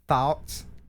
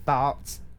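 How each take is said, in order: No difference in how they are said.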